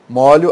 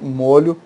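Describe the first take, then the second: First: The stressed o vowel is open. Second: The stressed o vowel is closed. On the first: A bunch of keys. "aberta aqui" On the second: A sauce.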